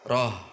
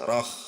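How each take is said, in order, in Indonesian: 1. Bunyi h terakhir longgar dan berasal dari bagian dalam. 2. Bunyi h terakhir dibuat tinggi di tenggorokan. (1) "Kalau ke bawah menjadi ha besar" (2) "menekannya kurang di titiknya sehingga ke atas"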